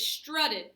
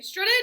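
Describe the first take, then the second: First: The stress is on the first syllable. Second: The stress is on the second syllable. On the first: The speaker calls it right. "the emphasis is on the strut part" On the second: The speaker calls it wrong. "we wouldn't say strutted because that's weird"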